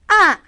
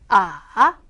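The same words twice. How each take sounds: First: The pitch falls sharply from high to low. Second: The pitch is low, dipping then rising. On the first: "확 떨어져요" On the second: "내려왔다가 올라가는 음"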